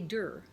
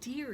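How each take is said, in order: First: The vowel is an 'er' sound. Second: The vowel is an 'ear' sound. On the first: The speaker calls it wrong. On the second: The speaker calls it right.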